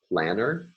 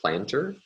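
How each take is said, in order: First: The t after the n is dropped. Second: The t after the n is pronounced.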